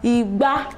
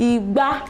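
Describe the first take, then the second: First: The pitch goes from mid to high. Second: The pitch goes from mid to high.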